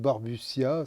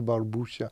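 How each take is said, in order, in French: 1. Le nom se prononce avec une prononciation française. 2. Le nom se prononce avec une prononciation italienne. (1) "en France, j'entends plutôt Barbuccia" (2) "c'est d'origine italienne, sicilienne... ça me plaît bien d'entendre Barbuccia"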